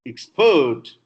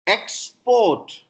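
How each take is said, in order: First: "export" as ex-PORT, loud second syllable; weak start, punch PORT in "export"; verb stress. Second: "Export" as EX-port, high and loud first syllable; noun stress. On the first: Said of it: "is verb". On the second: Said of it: "is noun". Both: Shown as a demonstration.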